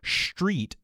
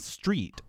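First: It begins with a strong, exaggerated sh sound. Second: It begins with a plain s sound. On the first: "It's not so much street" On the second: "rather than street"

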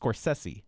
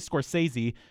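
First: The name is said with S sounds. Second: The name is said with Z sounds. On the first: The speaker calls it right. "they are S sounds, not Z sounds, so it's Scorsese" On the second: The speaker calls it wrong. "A lot of people say Scorsese, which is not right"

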